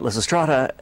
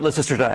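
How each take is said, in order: First: The stress is not on the second syllable. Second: The stress is on the second syllable. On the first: The speaker calls it wrong. "a lot of people uh, uh, pronounce it uh" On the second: The speaker calls it right. "the stress is on the second syllable"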